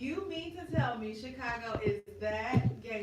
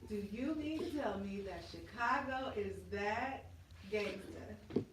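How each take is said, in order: First: It is said at normal speed. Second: It is said very slowly, drawn out.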